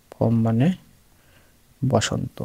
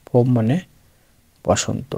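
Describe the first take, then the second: No difference in how they are said.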